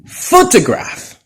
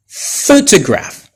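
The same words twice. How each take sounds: First: "photograph" slow, high, first syllable stressed; stress on PHO. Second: "Photograph" slow with first syllable stressed; stress on PHO. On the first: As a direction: drag out "photograph", lean on pho. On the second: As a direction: say "Photograph" slowly, pho strong. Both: Shown as a demonstration. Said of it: "The same for".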